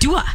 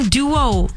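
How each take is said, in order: First: The word ends in an 'ah' vowel. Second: The word ends in an 'oh' vowel. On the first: The speaker calls it wrong. "you're saying Dua. Like [name]" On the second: The speaker calls it right. "No, Duo"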